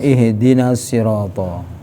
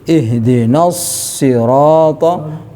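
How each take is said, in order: First: The doubled consonant is said short. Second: The doubled consonant is held long. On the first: The speaker calls it wrong. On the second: The speaker calls it right.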